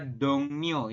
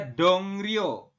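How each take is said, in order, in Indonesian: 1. Suku kata kedua dimulai dengan bunyi N. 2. Suku kata kedua dimulai dengan bunyi R. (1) "Tetapi kita membacanya adalah dongnyo" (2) "Tulisannya adalah dongrio"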